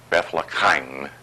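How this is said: The name has a Yiddish-style pronunciation.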